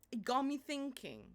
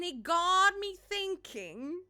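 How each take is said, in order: First: Said in the usual way. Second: Slow, higher, louder, with mock weight; dramatic musing. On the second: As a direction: draw it out like a big revelation. Dramatic repeat of a phrase.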